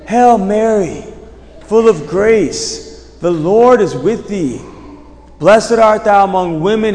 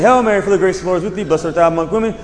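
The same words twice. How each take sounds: First: It is said slowly and deliberately. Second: It is rattled off quickly.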